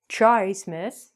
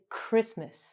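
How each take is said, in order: First: The word begins with a 'ch' sound. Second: The word begins with a 'k' sound. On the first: The speaker calls it wrong. "we don't say Christmas" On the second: The speaker calls it right. "We say Christmas"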